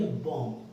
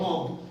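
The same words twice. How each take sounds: First: बॉम्ब said as "bom", ending on m; silent b. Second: बॉम्ब ending in an audible b after the m; final b sounded. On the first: Teacher showing students the correct pronunciation, silent b. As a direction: drop the b from बॉम्ब, close on m. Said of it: "pronunciation करेंगे तो हम बोलेंगे". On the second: Teacher repeating what is written for students, final b sounded. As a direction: pronounce बॉम्ब as written, b and all. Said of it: "क्या लिखा है?". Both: Shown as a demonstration.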